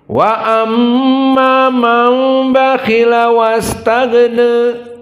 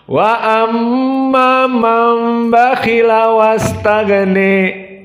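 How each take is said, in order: First: The final vowel is slightly bent toward 'ee'. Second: The final vowel is strongly bent toward 'ee'. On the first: "Qiraah man? Wars wa Abi Amr" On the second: "dibaca dengan al-imalah al-kubra di akhirnya"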